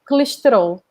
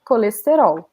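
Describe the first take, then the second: First: The vowels are reduced and the consonants dominate. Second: Every vowel is clearly and fully pronounced. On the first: The speaker is from Portugal. "a Portuguese person says it, uh, they will pronounce it like this" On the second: The speaker is Brazilian. "every Brazilian will say like this"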